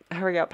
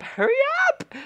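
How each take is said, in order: First: Raised, pressing request; tense, higher-pitched nudge; impatient urging. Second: Very high, loud screech; urgent squealed shout; frantic yell. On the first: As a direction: urge them on, not yet yelling. Urging before the louder repeat. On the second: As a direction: shriek it to rush them along. Urgent repeat in game. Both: Real, not acted.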